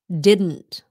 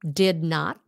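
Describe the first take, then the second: First: The words are run together as one contraction. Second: The two words are said in full. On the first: "becomes didn't" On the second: "Did not becomes"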